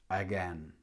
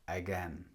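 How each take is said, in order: The two takes are said the same way.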